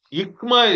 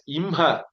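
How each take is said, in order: First: Hma with h sounded before m; hma as written. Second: Hma turned to mha, m first; hma as pronounced. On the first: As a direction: pronounce the conjunct hma as spelt. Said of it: "we always pronounce it as". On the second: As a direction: sound m before h in the conjunct. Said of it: "The makara comes first". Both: Shown as a demonstration.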